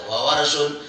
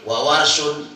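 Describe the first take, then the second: Both takes have the same delivery.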